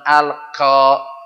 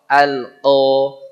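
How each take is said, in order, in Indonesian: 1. Konsonan pertama adalah k biasa yang dibuat lebih ke depan. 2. Konsonan pertama dibuat di dalam tenggorokan. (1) "Bukan al-qo. Kalau al-qo itu kaf dikasih o" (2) "Dia kalau orang Jawa nyeklok"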